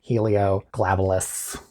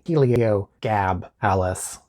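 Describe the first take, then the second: First: An L sound comes right after the G. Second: The G is followed directly by a vowel. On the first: The speaker calls it wrong. "but I want to say Helioglabalus" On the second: The speaker calls it right. "it's either going to properly Heliogabalus"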